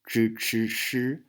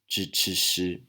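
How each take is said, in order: First: It is said with a mainland China accent. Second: It is said with a Taiwan accent. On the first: "in China, it's pronounced as" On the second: "in Taiwan, we say"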